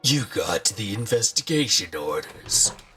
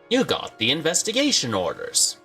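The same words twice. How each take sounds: First: It is read in a dramatic announcer voice. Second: It is read in an ordinary, plain voice.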